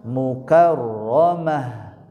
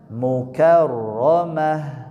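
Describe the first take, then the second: The two takes are said the same way.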